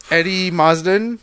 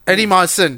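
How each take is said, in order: First: Marsden with a d, "MARZ-dən"; mispronounced surname. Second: Marsden without the d, "MAR-sən"; corrected surname. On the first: Reading out a cast list, Marsden slipped as "MARZ-dən". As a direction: say Marsden with a buzzed z and a d. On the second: Correcting a slip in the cast list, Marsden as "MAR-sən". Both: Real, not acted.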